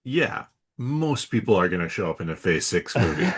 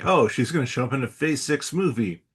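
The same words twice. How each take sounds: First: Dry, dismissive comeback; unimpressed. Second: Lightly acted take on a hot rumour; mock news reaction. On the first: Real, not acted. Host answers his own mimicked reaction, unimpressed. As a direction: wave the rumour away as obvious. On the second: Host mimics reaction to a Phase Six rumour, lightly acted. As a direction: play someone reacting to the rumour.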